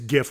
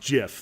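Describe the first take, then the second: First: It starts with a hard g sound. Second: It starts with a soft j-like sound. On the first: This is the pronunciation the channel uses. "GIF with a hard G" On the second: This is the creator's official pronunciation. "technically pronounced GIF"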